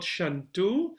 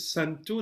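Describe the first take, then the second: First: The word begins with an sh sound. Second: The word begins with a plain s sound. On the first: The speaker calls it wrong. "not shantu" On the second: The speaker calls it right. "is santu"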